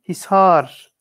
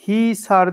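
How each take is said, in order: First: The first vowel is short. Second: The first vowel is drawn out long. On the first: The speaker calls it right. "Böyle bir uzatma kelimenin aslında yok" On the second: The speaker calls it wrong.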